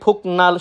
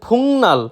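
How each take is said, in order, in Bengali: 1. প্রথম সিলেবলটি k ধ্বনি দিয়ে শেষ হয়। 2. প্রথম সিলেবলটি ng ধ্বনি দিয়ে শেষ হয়। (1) "সেটা সম্পূর্ণরূপে ভুল" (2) "সঠিক উচ্চারণ ফুংনাল"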